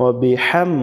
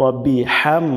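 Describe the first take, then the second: Both takes have the same delivery.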